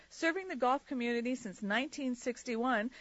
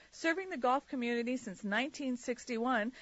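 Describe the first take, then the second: The two takes are said the same way.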